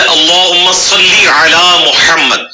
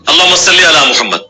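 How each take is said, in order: First: اللہم صلی علی محمد very slow, every letter full and long vowels held; correct Arabic articulation. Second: اللہم صلی علی محمد with light, unrounded sounds, run together casually; majhool everyday pronunciation. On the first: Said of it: "یہ لفظ ہے". (تجوید کے ساتھ ٹھہر کر اللہم صلی علی محمد) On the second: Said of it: "ان کی عربی بھی مجہول ہوتی ہے". (مجہول لہجے میں سادہ اللہم صلی علی محمد) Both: Shown as a demonstration.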